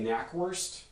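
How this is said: It is said with English sounds. "I would say Knackwurst"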